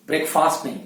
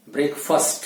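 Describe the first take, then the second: First: ब्रेकफास्ट with a long faast; wrong pronunciation. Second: ब्रेकफास्ट as brekfust, short middle; correct pronunciation. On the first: (ब्रेकफास्ट लंबा फास्ट, गलत) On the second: (ब्रेकफास्ट, ब्रेकफस्ट सही) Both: Shown as a demonstration.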